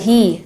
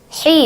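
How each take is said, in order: First: The h is a plain, light breathy sound. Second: The h is a strong, sharp throaty sound. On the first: The speaker calls it wrong. "bukan hi" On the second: The speaker calls it right. "Tebalkan hi-nya ya. Jelaskan, pedaskan ha-nya"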